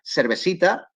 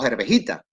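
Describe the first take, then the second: First: The c sounds are said as s. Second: The last c sound is said as h.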